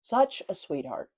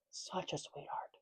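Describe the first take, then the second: First: Said in the usual way. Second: Very soft, almost whispered aside; hushed cooing. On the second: Real, not acted. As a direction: coo it under your breath. Cooing repeat, nearly whispered.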